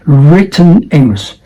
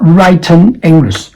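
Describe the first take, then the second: First: WRITTEN said as "RIT-en"; short "it" vowel in WRITTEN. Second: WRITTEN said as "RITE-en"; wrong long I. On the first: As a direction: stress the first syllable, RIT-ten, in WRITTEN. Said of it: "the vowel is it". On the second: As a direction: say WRITTEN with the vowel of "write". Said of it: "not written English". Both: Shown as a demonstration.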